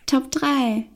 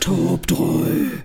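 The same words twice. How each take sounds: First: It is said in a normal voice. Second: It is said in a growling voice.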